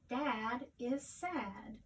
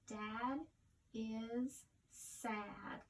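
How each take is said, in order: First: It is read smoothly as one phrase. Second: It is read slowly, word by word.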